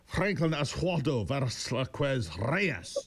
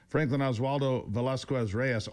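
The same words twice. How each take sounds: First: The name is said with an exaggerated Spanish-style accent. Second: The name is said with a plain American accent.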